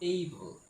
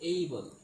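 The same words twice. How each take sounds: No difference in how they are said.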